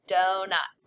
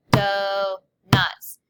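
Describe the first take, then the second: First: Said in the usual way. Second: "Donuts" as do, pause, nuts, loud; syllable stomp. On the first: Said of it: "Number five is donuts". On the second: Shown as a demonstration. Teacher leading students in loud syllable stomp. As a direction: stomp out "Donuts" in two punched beats. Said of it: "Let's syllable stomp it out".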